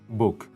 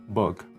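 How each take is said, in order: First: The vowel sounds close to oo. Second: The vowel sounds close to uh. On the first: "if we pronounce the word book closer to the oo" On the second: "if it is closer to o and uh"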